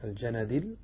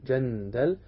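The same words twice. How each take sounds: First: الجندل as al-ja-na-dil; fatha nun, kasra dal. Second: جندل as jan-dal, no vowel after the n; sukun on nun. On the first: Teacher corrects the reading for students, fatha and kasra in الجندل. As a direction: open the n to "na" and end الجندل on "dil". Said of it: "بفتح النون وكسر الدال". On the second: Teacher shows students the word with sukun on nun in جندل. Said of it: "بسكون ال". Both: Shown as a demonstration.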